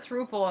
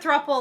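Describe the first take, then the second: First: The word does not rhyme with couple. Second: The word rhymes with couple. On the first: The speaker calls it wrong. "I used to call it a throuple, and my friend laughed at me" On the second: The speaker calls it right. "It's a thruple like a couple"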